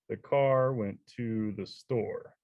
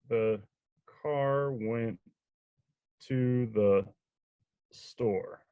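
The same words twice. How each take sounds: First: It is read smoothly, like natural speech. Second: It is read somewhat more smoothly, still uneven. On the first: The reader now knows the text well. "they just start to sound more natural" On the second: The reader is becoming familiar with the text. "the second time they read it"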